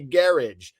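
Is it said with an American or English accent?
English. It is said with an English accent.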